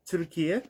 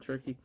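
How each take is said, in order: First: The name is said the way Turkish people say it. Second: The name is said the plain English way.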